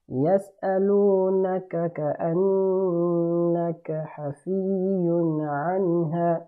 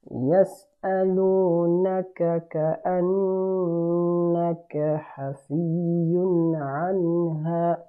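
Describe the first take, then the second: No difference in how they are said.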